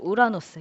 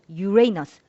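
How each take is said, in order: First: It is pronounced the Korean way, starting with 'u'. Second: It is pronounced like English, starting with 'yu'. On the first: "콩글리시로" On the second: "영어로"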